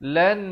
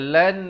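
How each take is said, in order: First: The n is pronounced clearly and fully. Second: The same.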